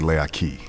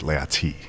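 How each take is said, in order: First: The name is said with a K sound. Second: The name is said with a T sound. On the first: It is the casual way of saying it. "If if you were saying it casually, you would say Leaki with a K" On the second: It is the formal way of saying it. "in a proper way, uh, it would be Leati with a T"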